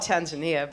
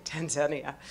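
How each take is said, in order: First: Tanzania with stress on NI, tan-za-NEE-a; American pronunciation. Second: Tanzania with stress on ZAN, tan-ZAN-ia; local pronunciation. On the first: Traveler showing how we call it, American Tanzania, tan-za-NEE-a. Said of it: "We call it Tanzania". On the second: Traveler showing how they say it, local Tanzania, tan-ZAN-ia. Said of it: "but they say Tanzania". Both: Shown as a demonstration.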